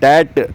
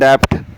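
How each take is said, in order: First: No p sound; the lips never close. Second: A p sound is heard before the t. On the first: The speaker calls it right. "बी silent इसमें... उसे बोलते हैं डेट" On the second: The speaker calls it wrong. "लोग कहते हैं डेप्ट। डेप्ट नहीं"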